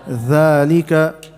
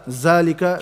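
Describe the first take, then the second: First: The word begins with a voiced th sound. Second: The word begins with a buzzing z sound. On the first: The speaker calls it right. "bring your tongue out" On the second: The speaker calls it wrong. "Don't say za"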